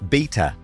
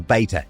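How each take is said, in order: First: It is said in a non-American pronunciation. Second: It is said in an American pronunciation.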